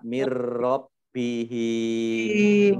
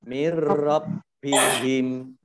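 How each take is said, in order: First: The vowel in the last syllable is long. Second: The vowel in the last syllable is short. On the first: The speaker calls it wrong. "jangan dibaca mir rabbihim, tidak ada tanda panjangnya" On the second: The speaker calls it right. "himnya pendek ya"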